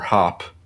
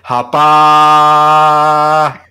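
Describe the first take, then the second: First: The name ends without a final vowel. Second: The final vowel is drawn out and exaggerated.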